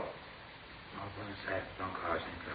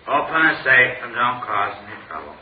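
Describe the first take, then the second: First: It is said more quietly. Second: It is said more loudly.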